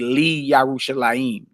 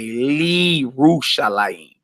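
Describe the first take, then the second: First: A separate 'ya' syllable follows 'li'. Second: 'Li' runs straight into 'rushalayim'. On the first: The speaker calls it wrong. "You wouldn't say" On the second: The speaker calls it right. "You would say"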